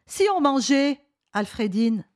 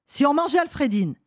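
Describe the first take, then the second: First: Exclaimed invitation, "Alfredine" set apart as a name called; pause before ALFREDINE. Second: "si on mangeait Alfredine" run together, higher; spiteful spoiler, "mangeait Alfredine" unbroken; read without pause. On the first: A narrator's reading. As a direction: address "Alfredine" after a comma break. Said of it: "en mettant le ton". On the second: Acted. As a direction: read "si on mangeait Alfredine" as one phrase, no comma. Old man reads the spoiler line.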